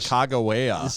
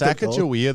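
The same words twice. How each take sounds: First: It uses a pronunciation closer to the original language. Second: It uses the common everyday English pronunciation. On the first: The speaker calls it right. "that sounds much more correct" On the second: The speaker calls it wrong. "that's what everyone says"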